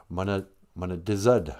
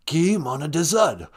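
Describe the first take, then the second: First: Said in the usual way. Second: Put-on singsong Rez-accented Ojibwe. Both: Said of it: "don't say it with that Rez accent".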